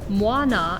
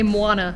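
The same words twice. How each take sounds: First: The final vowel is fully and clearly sounded. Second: The final vowel is cut short and weakened. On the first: The speaker calls it right. "as it's supposed to be said" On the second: The speaker calls it wrong. "we're going to want to say"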